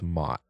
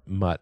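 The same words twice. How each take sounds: First: "Mott" said with the open o of "hot"; Mott as right name. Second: "Mutt" said with the short u of "cut"; Mutt as wrong name. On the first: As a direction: say "Mott" rhyming with "lot". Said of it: "so it's not Mutt". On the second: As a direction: say "Mutt" rhyming with "but". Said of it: "I think it's Mott". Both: Shown as a demonstration.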